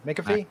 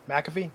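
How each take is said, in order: First: "McAfee" starting with a short "mick"; first syllable MIC. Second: "McAfee" starting with a clear "mack"; first syllable MAC. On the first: Host trying the name another way, MICK-uh-fee. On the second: Host checking the wrestler's name, MACK-uh-fee. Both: Shown as a demonstration.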